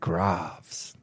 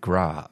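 First: The final S is pronounced. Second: The final S is silent. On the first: The speaker calls it wrong. "No, don't say the S" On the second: The speaker calls it right. "don't say the S"

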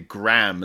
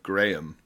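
First: The name is said with an American pronunciation. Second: The name is said with a British pronunciation. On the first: "they say Graham" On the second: "instead of Graham"

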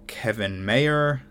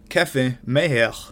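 First: The name is pronounced with an English accent. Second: The name is pronounced with a French accent. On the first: "a man who you might call [name], spelled like [name]" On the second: "that's my mint French pronunciation"

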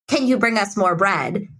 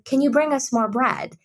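First: The request sounds flat and blunt. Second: The request sounds soft and polite. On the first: This is how the mother's accented intonation comes across, which some people hear as rude. "The tone feels more like" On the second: This is the expected polite way of asking.

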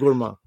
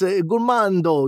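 First: The word ends without a D sound. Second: A final D sound is pronounced. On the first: The speaker calls it right. "It's just gourmand" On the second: The speaker calls it wrong. "If you put a D, it's gourmando"

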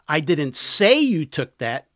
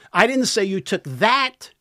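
First: The stress is on the word 'say'. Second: The stress is on the word 'that'. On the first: The speaker only hinted it. "I implied it" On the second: The listener took something else. "Took something else"

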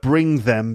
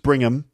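First: The th sound in them is kept. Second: The th sound in them is dropped. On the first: "th either gets dropped"

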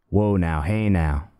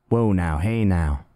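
No difference in how they are said.

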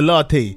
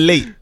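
First: It is said as two syllables, 'latte'. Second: It is said as one syllable, 'late'. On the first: This is the usual pronunciation. The speaker calls it right. "instead of the latte" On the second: This is how the character mispronounces it. The speaker calls it wrong. "Get me the late"

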